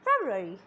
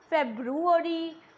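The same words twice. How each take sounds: First: The middle syllables are said quickly together. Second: The middle syllables are said slowly and separately. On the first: The speaker calls it right. "ru ari will be pronounced in speed" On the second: The speaker calls it wrong. "Many people pronounce it as February, which is very incorrect"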